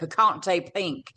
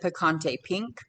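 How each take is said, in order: First: It is said with a put-on foreign accent. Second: It is said in the speaker's ordinary voice.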